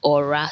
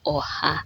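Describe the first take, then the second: First: The middle consonant is an R sound. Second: The middle consonant is an H sound. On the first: "Some people pronounce it aura, ... like just the R being pronounced" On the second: "some people pronounce it oha ... or the H is being pronounced"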